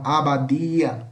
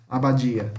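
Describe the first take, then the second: First: "abadia" with a plain D, "a-ba-DEE-a"; Spanish hard D. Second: "abadia" as "a-ba-DJEE-a"; Portuguese hissed D. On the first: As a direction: keep the D of "abadia" clean, without hiss. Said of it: "Em espanhol". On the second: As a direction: let the D of "abadia" turn into a J sound. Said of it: "Em português". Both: Shown as a demonstration.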